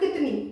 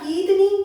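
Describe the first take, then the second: First: The first vowel is kept short. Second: The first vowel is drawn out long. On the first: It is written with the short i vowel sign. "जो मैंने पहला क बोला ना, उस पे जो ध्वनि थी वो मैंने खींची नहीं" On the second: It would be written with the long i vowel sign. "जो मेरा क पे ध्वनि था, जो ख पे साउंड था, वो लंबा था"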